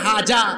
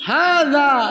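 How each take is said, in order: First: The middle consonant is a j sound. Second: The middle consonant has the tongue tip on the teeth. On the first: The speaker calls it wrong. "যে বলতেছে হাজা ব্যাকল" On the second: The speaker calls it right. "জিহ্বার আগাকে দাঁতের আগায় লাগায় বলতে হয়"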